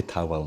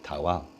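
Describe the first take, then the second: First: Said in the usual way. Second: Towel with a strong Welsh lilt; towel said thick and Welsh; Welsh accent. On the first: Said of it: "I can say towel normally". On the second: Shown as a demonstration. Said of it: "and I can say towel".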